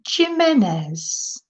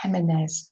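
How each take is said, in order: First: Jimenez said with an English J as in Josie; hard J. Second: Jimenez with the J said as a breathy H; Jimenez, the J breathed out as an H. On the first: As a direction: start Jimenez with a hard J sound. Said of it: "I pronounced the J". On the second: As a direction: say Jimenez Spanish-style, the J like an H. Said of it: "with an H". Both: Real, not acted.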